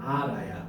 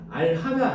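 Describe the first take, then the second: First: No h sound is heard between the syllables. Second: An h sound is heard between the syllables. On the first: The speaker calls it right. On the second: The speaker calls it wrong. "알하가 아니고"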